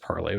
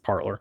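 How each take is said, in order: First: The second syllable ends in an 'ay' vowel. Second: The second syllable ends in an 'or' sound. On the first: This is the pronunciation others say is correct. "they say it's pronounced parlay" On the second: This is the speaker's habitual pronunciation. "I can't help but pronounce it parlor"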